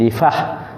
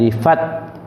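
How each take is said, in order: First: The word ends with an h sound. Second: The word ends with a t sound. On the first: The speaker calls it right. "Jadi bunyi difah" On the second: The speaker calls it wrong. "bukan difat ... difat salah"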